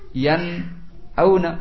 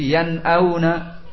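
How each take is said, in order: First: There is a short pause between the two words. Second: The two words run together without a pause. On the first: The speaker calls it wrong. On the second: The speaker calls it right.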